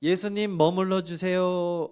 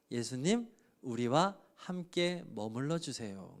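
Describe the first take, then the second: First: Fervent loud plea. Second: Soft slow plea. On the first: Acted. Preacher repeating the plea. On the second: Retold or imitated. Samaritans pleading with Jesus.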